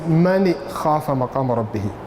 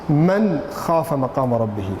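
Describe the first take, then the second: First: The noon is blurred with a nasal hum. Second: The noon is said fully and clearly. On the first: The speaker calls it wrong. "You don't say" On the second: The speaker calls it right. "It has to be"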